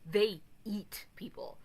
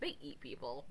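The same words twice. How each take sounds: First: It is said in a dark, menacing way. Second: It is said in a casual, matter-of-fact way. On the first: They hunt people down violently. "that sounds like they hunt people down" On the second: It is just a cultural or religious custom. "that doesn't sound like they're violent"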